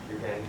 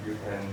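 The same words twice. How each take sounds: The two takes are said the same way.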